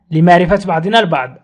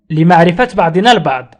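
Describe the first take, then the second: No difference in how they are said.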